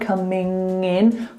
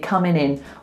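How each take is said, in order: First: The G is heard, linking nasally into 'in'. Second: The G is dropped; 'coming' ends in N. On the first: "We link the G sound, coming in, with like a nasal link" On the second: "So we take it away completely"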